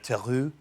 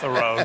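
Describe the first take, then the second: First: The name is said the original French way. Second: The name is said the Americanized way. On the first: This is how it was said in the ancestral homeland. "in the motherland, it would have been uh" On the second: This is the simplified version adopted while growing up. "just made it Thoreau"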